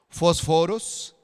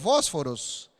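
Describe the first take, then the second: First: The stress is on the second syllable. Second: The stress is on the first syllable. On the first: This is how the word is said in Greek. "si tiene la tilde en la segunda O, ¿cómo se dice entonces?" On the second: This is how the word is said in Spanish. "Si la tuviera en la primera, yo digo"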